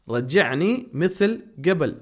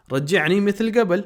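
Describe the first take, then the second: First: رجعنی مثل قبل drawn out slowly, stress on رجعنی; slow repeat. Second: رجعنی مثل قبل said higher and louder at normal speed; Arabic model phrase. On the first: Teacher repeating the phrase slowly for students. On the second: Teacher first saying the phrase, higher and louder. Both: Shown as a demonstration. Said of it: "ہم کہتے ہیں".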